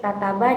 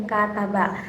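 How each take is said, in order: First: Said in the usual way. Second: Second "kata ba" as kaa-ta-ba; "kata ba" opening on a held vowel; long first vowel. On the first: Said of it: "itu memiliki durasi pendek". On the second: Shown as a demonstration. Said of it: "itu memiliki durasi yang panjang".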